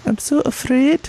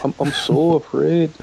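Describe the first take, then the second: First: Much higher, dainty Scottish voice; delicate Scottish accent. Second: Slower, lightly raised Scottish voice; Scottish accent echo. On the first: Demoing the Scottish accent he finds cute, much higher. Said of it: "I can't even do it". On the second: Co-host copying the Scottish accent demo, milder and slower. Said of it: "Oh, that's nice". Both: Shown as a demonstration.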